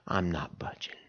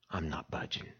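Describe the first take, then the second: First: Soft, low, flat refusal; quiet stubborn refusal. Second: Soft, low, set refusal; quiet stubborn refusal. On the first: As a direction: drop it down, stubbornly. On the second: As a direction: mutter it, unmoved. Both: Pretend. Camper's stubborn refusal, hushed.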